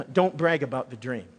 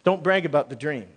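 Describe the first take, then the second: First: "Don't" hit firmly at the start, falling after; stress on don't. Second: "brag" punched, the rest falling; stress on brag. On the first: Telling the congregation what to write down, stress on "Don't". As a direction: lean on "Don't", then let "brag about the dream" fall away. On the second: Repeating the point for the congregation, stress on "brag". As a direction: land hard on "brag" and drop the rest. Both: Shown as a demonstration.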